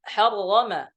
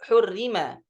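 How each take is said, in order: First: The first two vowels are a and a. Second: The first two vowels are u and i.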